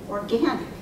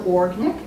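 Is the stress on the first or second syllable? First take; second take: second; first. First: The stress is on the second syllable. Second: The stress is on the first syllable. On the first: The speaker calls it right. "pronounce that word correctly" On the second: The speaker calls it wrong. "You always stress the or. So organic"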